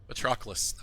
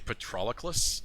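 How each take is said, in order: First: The name is said without an added consonant. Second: The name is said with an added consonant. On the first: "that's how you pronounce it" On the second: "I want another uh, consonant in there. L"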